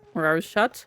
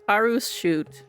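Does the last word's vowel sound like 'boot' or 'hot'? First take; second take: hot; boot. First: The last word has a short o vowel. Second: The last word has a long oo vowel. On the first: "I say Aru's shot" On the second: "it's not spelled like classic shoot"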